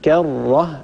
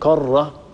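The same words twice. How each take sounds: First: The k sound is light and thin. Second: The k sound is heavy and thick. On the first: The speaker calls it right. "إنما كرة الكاف من حروف الاستفال" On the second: The speaker calls it wrong. "لا نفخم الكاف، لا نقول كرة"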